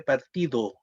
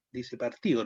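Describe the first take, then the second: First: Said in the usual way. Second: "partido" said as partio, D gone; dropped D. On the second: Shown as a demonstration. Teacher to class, Chilean "partido" without the D. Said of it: "la letra D o el sonido D que va entre dos vocales".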